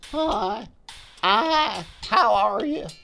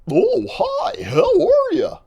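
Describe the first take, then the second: First: It is said in a lazy voice. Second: It is said in a goofy voice.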